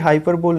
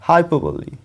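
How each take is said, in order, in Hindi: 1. शब्द का अंत बिना आखिरी स्वर की ध्वनि के होता है। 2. शब्द का अंत 'ee' ध्वनि के साथ होता है। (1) "ये हाइपरबोल नहीं होता है" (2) "ये होता है हाइपरबोली"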